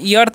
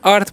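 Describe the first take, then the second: First: The word starts with an extra 'ee' sound. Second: The word starts directly with the 'er' sound. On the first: The speaker calls it wrong. "ई अर्थ नहीं पढ़िएगा, यहाँ पर ई जो है silent होता है" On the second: The speaker calls it right. "यहाँ पर क्या पढ़ते हैं, अर्थ पढ़ते हैं"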